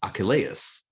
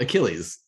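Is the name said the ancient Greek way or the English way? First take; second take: ancient Greek; English. First: The name is said in its ancient Greek form. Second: The name is said in its modern English form. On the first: This is how people in ancient times said it. "in ancient times, his name was Achilles" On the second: This is how people say it today. "not Achilles"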